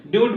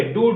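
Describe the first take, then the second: First: ड्यूड as dyood, with y-glide; ड्यूड, louder, with yoo instead of oo; common mispronunciation. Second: डूड as dood, no y-glide; डूड said dood, the corrected reading; correct oo pronunciation. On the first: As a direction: say ड्यूड with a mistaken "you" sound. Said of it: "लोग गलती कर जाते हैं". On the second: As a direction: give डूड a pure long oo. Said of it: "ये डूड होगा". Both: Shown as a demonstration.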